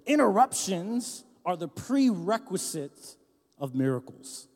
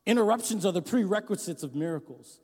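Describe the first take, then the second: First: Slow, deliberate dictation pace. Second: Said in the usual way. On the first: Shown as a demonstration. Pastor to congregation, dictating slowly so they write it down. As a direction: spell it out slowly for note-taking. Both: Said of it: "and write this down".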